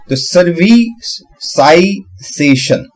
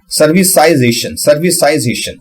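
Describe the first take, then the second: First: सर्विसाइजेशन drawn out very slowly, every syllable clear; slow careful pronunciation. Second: Said in the usual way. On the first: Shown as a demonstration. Learner slowly sounding out a hard word. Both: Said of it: "तो मैं क्या करूंगा कि".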